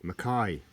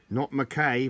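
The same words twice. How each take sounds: First: Said in the usual way. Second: "Mackay" said as mac-KAY, rhyming with day, louder; Mackay with the ending like "kay"; wrong pronunciation. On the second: Shown as a demonstration. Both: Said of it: "that's pronounced Mackay".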